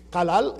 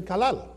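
First: Kalal with a hard catch at the back of the throat; glottal stop. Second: Said in the usual way. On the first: Shown as a demonstration. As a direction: catch the air briefly in saying Kalal. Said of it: "is a little bit different". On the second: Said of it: "if you don't have the glottal stop".

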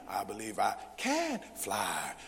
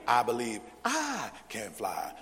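First: Slow and low, "can" lifted and held; mock recitation leaning on CAN; stress on CAN. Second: Mock recitation leaning on the second "I"; stress on second I. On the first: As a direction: punch "can" before "fly". Mock drill, emphasis moved to can. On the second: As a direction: punch the "I" before "can". Mock drill, emphasis moved to second I.

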